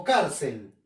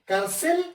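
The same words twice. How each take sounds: First: "cárcel" correctly stressed as CÁR-cel; "cárcel" with the accent on "cár". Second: "Cárcel" wrongly stressed as car-CEL; stress on final CEL. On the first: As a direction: lean on the first syllable of "cárcel", then fall. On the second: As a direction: push the second syllable "cel" of "Cárcel". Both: Shown as a demonstration. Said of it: "identificar la sílaba tónica".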